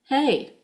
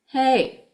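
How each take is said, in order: Both takes have the same delivery.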